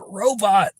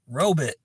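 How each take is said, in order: First: The second syllable sounds like 'bot'. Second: The second syllable sounds like 'bit'. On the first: The speaker calls it right. "It is robot" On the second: The speaker calls it wrong. "It's not robot. There's no I in the word robot"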